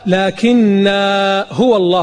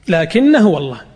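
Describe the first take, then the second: First: The vowel ending the first word is drawn out. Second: The vowel ending the first word is kept short. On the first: The speaker calls it wrong. "بعض الناس يقرأها لكن هو الله، غلط" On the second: The speaker calls it right. "وعند الوصل تقرأها لكن هو الله"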